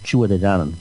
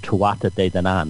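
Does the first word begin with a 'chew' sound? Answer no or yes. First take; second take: yes; no. First: The first word starts with a 'chew' sound. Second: The first word does not start with 'chew'. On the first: The speaker calls it right. "like chewa, like chewing something" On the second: The speaker calls it wrong. "Most people pronounce it incorrectly"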